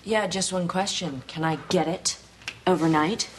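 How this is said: It is said in a suggestive, flirtatious tone.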